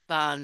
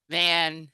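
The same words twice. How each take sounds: First: It is pronounced with Spanish sounds. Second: It is pronounced with English sounds. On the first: "in Spanish it's" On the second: "That's the English pronunciation"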